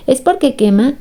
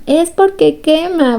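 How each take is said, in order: First: Rising question on porque; "¿Es porque quema?" asked with the voice lifting at the end; puzzled question, tune going up; asking. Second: Porque stressed, slow and higher, falling at the end; "Es porque quema" stated slowly with weight on porque; slow emphatic answer. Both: Shown as a demonstration.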